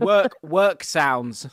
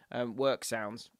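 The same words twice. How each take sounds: First: Drawn-out wondering. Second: Said in the usual way. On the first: Real, not acted. Searches for the word.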